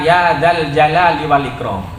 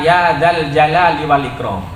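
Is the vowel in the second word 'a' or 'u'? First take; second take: a; a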